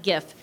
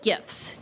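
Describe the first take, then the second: First: "gif" ending on the f, no ts; GIF without the t. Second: "gifts" ending in a clear t-s; GIFTS with final ts. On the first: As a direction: stop "gif" at the f sound. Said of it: "not gif". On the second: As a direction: sound out the ts closing "gifts". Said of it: "not gif, G I F T S". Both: Shown as a demonstration.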